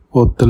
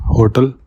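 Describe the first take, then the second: First: French "Hotel" with a silent H; "Hotel" said as French "otel"; French pronunciation. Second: Said in the usual way. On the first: Shown as a demonstration. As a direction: drop the H on "Hotel", starting on O. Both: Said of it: "Hotel means hotel".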